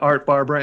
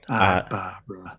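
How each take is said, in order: First: It is said in a general American accent. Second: It is said in a Boston accent.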